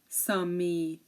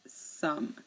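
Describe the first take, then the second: First: An extra vowel sound is added at the end. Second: The word ends on the consonant sound. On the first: The speaker calls it wrong. "we don't say" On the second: The speaker calls it right. "the E here is silent"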